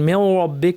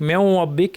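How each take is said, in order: Both takes have the same delivery.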